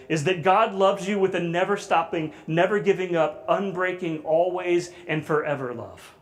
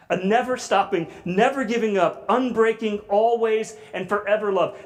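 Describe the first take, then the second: First: Said in the usual way. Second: Higher, louder, pressing each phrase; building passionate emphasis. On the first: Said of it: "this is the way Sally Lloyd Jones defines it". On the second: Shown as a demonstration. Preacher lifts the definition higher and louder. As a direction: repeat it with rising fervor to the congregation. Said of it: "repeats the definition with more force".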